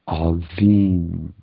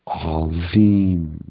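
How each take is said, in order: First: The middle consonant is a soft 'dh' sound. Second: The same.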